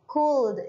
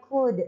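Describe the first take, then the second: First: "cold" said slowly as "kuld", with the L heard; wrong reading of could, "kuld" with an L; L wrongly sounded. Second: "could" said as "kud", no L; silent L. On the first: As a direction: stretch out "cold" as a mistaken "kuld". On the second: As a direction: read "could" like Indonesian "kud". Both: Shown as a demonstration. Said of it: "Jadi L-nya itu seperti tidak ada".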